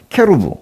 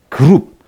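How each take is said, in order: First: It is said as 'kerub', starting with k. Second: It is said as 'geurup', starting with g. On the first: This is the original Hebrew form. "원래 발음이 케루브예요" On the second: This is the usual Korean form. "우리는 뭐 그룹 이렇게 하고 있는데요"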